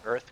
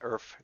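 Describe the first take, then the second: First: The word ends with a th sound. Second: The word ends with an f sound. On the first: "it wouldn't have been an Earth Grab Totem" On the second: "I used to say F instead of T H"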